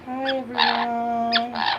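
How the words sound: It sounds shy and young, like a small child.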